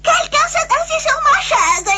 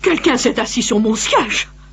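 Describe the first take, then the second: First: It is said in a small, high-pitched voice. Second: It is said in a medium, middle voice.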